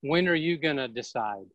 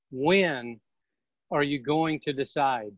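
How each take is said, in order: First: Said in the usual way. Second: "when" set apart by long pauses, said lower and heavy; stress on when. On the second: Shown as a demonstration. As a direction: pause after "when", then press the question.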